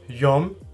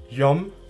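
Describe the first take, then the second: No difference in how they are said.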